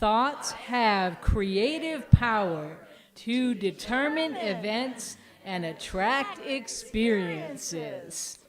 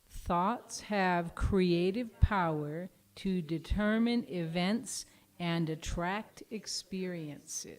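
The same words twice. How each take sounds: First: It is said with lively enthusiasm. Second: It is said flatly, without much energy.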